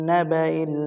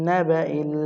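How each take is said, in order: No difference in how they are said.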